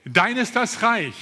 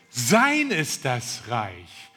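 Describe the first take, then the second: First: Said in the usual way. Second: "sein" leaned on, slow and a little lower; slow down and land hard on "sein"; stress on sein. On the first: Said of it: "das heißt". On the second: Shown as a demonstration. Preacher explains the prayer to the congregation, stress on "sein". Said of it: "Die Betonung liegt auf ihm".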